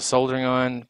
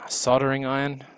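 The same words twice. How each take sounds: First: It is pronounced the way non-Americans say it. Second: It is pronounced the way Americans say it. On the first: "which the rest of the world calls a soldering iron" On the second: "but Americans call a sol soldering iron"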